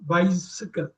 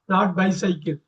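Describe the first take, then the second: First: Said the way native English speakers say it. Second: Said the way Indian English speakers say it. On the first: The speaker calls it right. "That is the way they will pronounce" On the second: The speaker calls it wrong. "We Indians pronounce it wrong"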